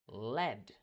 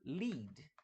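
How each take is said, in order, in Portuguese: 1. A vogal é curta, como 'eh'. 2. A vogal é longa, como 'ee'. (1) "lead significa material chumbo" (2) "com uma pronúncia diferente... o verbo liderar"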